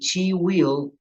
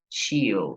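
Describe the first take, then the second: First: Will is said as a separate full word. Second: Will is shortened and joined onto she. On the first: "Si voy a decir she will" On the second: "puedo decir she'll"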